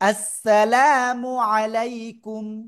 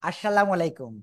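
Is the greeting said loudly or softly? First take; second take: loudly; softly. First: The greeting is said loudly and clearly. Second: The greeting is said softly, without force. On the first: The speaker calls it right. "জোরে বলতে হবে।" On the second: The speaker calls it wrong. "এরকম এরকম দেওয়া যাবে না।"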